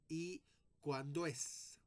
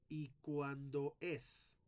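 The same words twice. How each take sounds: First: The syllables do and es merge into one. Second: The syllables do and es are said apart. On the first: The speaker calls it right. "como si fuera una sola sílaba" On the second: The speaker calls it wrong. "no voy a leer"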